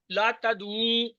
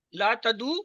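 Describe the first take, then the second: First: لا تدعو with a long final "uu"; لا تدعو, last vowel held long; plural prohibition. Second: لا تدعو with a short final "u"; لا تدعو, last vowel kept short; singular prohibition. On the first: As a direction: slowly draw out the end of تدعو. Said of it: "مت پکارو". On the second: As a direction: end تدعو briefly on a rising u. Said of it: "مت پکار". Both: Shown as a demonstration.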